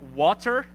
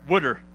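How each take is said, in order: First: The word is said in a standard accent. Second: The word is said in a Baltimore accent. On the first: "We don't have water in Baltimore" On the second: "What do we have? Water"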